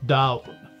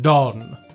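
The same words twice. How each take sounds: First: It is said with a Munster Irish pronunciation. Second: It is said with an Ulster Irish pronunciation. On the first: "in Munster Irish, it's pronounced Donn" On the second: "In Ulster Irish, it's pronounced Donn"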